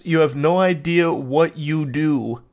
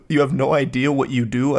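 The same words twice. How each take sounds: First: Said in the usual way. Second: Rising, baffled repeat of "You have no idea what you do"; incredulous questioning echo. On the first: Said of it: "reading his text flatly". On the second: Real, not acted. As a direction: echo it back, confused. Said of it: "I don't even understand what that statement's supposed to mean".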